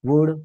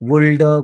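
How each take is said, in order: First: The word is said without an L sound. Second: The word is said with an L sound. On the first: The speaker calls it right. "असा उल्लेख त्याचा पाहायला मिळतो" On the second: The speaker calls it wrong. "असं नाही म्हणत"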